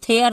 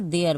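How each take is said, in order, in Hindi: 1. यह aspirated t ध्वनि से शुरू होता है। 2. यह d ध्वनि से शुरू होता है। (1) "थेयर नहीं बोलेंगे" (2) "देयर बोलेंगे"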